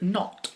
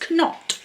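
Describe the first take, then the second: First: The word begins directly with n. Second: The word begins with a sounded k. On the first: This is the pronunciation not chosen for the name. "instead of not" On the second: This is the pronunciation chosen for the name. "I'm going to pronounce it as Knot"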